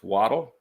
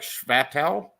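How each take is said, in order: First: The name starts with a 'w' sound. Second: The name starts with a 'shv' sound. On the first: This is how the name is actually said. The speaker calls it right. "it's Waddle" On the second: This is how the name looks from its spelling. The speaker calls it wrong. "Looks like Schvatal, but nope"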